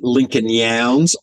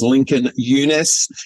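First: The surname is said like 'Yowns'. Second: The surname is said like 'Yunus'. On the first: The speaker calls it wrong. "we've been calling him Lincoln Yowns" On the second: The speaker calls it right. "the correct pronunciation for our great Australian actor is Lincoln Yunus"

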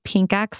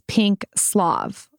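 First: The name ends with an 'ex' sound. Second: The name ends with a 'slav' sound. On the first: The speaker calls it wrong. "I pronounced it wrong" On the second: The speaker calls it right. "supposedly it's said as pink Slav"

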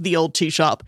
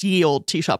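First: The first word begins with a th sound. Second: The first word begins with a y sound. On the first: The speaker calls it right. "It was always pronounced the old tea shop" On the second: The speaker calls it wrong. "it was never pronounced ye olde tea shop"

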